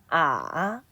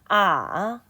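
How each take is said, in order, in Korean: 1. 음이 아주 낮게 내려갔다가 올라갑니다. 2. 음이 아주 낮게 내려갔다가 올라갑니다.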